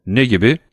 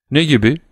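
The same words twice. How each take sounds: First: Said in the usual way. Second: "Ne" pushed higher, rising on "gibi"; Albert repeating his question over the hushing, insistent. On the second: A narrator's reading. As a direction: press the question again, higher, over the noise. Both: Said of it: "diye tekrarladı Albert".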